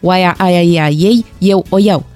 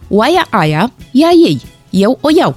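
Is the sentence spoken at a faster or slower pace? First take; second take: faster; slower. First: The sentence is spoken at a faster pace. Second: The sentence is spoken at a slower pace.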